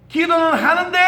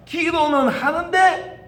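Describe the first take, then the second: First: 하는데 pushed up and held, 기도는 quick; emphasis moved onto 하는데; stress on 하는데. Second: 기도는 drawn out slowly and lifted, 하는데 light; slow emphasis on 기도는; stress on 기도는. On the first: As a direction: land the weight on 하는데 with a lift. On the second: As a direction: lean long on 기도는, then let 하는데 fall away. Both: Shown as a demonstration.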